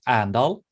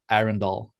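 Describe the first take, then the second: First: The name is said in a clipped local form. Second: The name is said in a full international form. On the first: This is how people from the city say it. "the locals pronounce it Andal" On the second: This is how it is said for the global market. "for the global market, we say Arendal"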